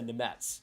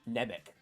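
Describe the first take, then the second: First: The name is not read as it is spelled. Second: The name is read as it is spelled. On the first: The speaker calls it right. "but it's a Nemetz" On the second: The speaker calls it wrong. "if you actually said it how it was spelled"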